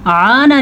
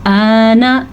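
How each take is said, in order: First: आना with a throaty ain on the first a; आना, alif turned into pharyngeal ain; wrong ain for alif. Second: आना with a clean open long a; आना, pure alif vowel; plain alif. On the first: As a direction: squeeze the throat to start आना. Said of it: "आना नहीं पढ़ना आपने". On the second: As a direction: draw out आना slowly, no throat squeeze. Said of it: "आ को आ ही पढ़ेंगे". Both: Shown as a demonstration.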